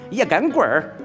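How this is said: Henan accent with a playful lilt. "河南说话比较俏皮"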